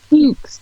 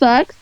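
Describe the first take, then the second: First: The vowel is long, rhyming with dukes. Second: The vowel is short, rhyming with ducks. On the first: The speaker calls it right. "No, motherfucker, it's Fuchs" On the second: The speaker calls it wrong. "everybody's like, "Oh, how do you say your last name?""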